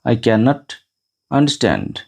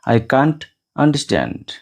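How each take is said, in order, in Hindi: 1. Can not को दो पूरे शब्दों की तरह बोला जाता है। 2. Can not को एक ही अक्षर में छोटा करके 'can't' बोला जाता है।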